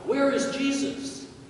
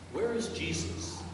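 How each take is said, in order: First: It is said very loudly. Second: It is said at a normal, quiet volume.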